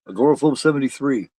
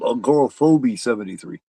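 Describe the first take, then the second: First: The name ends in 'phobe' with no final vowel. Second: The name ends with an extra vowel sound after 'phob'. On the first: The speaker calls it right. "the E is silent" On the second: The speaker calls it wrong. "the first person that said that called me a"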